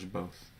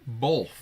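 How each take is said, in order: First: It is said without an L sound. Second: It is said with an added L sound.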